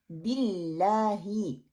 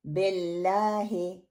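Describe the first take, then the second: First: बिल्लाही with a short clear "bi"; the correct recitation of बिल्लाही. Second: बिल्लाही with a spread, heavy "be" sound at the start; the common mistake in बिल्लाही; wrong broad be. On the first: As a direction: say बिल्लाही slowly with a crisp short "i". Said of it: "ये दुरुस्त pronunciation है". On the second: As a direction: say बिल्लाही as "bellahe", the first vowel spread wide. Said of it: "बे को मोटा करके फैला के पढ़ते हैं". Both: Shown as a demonstration.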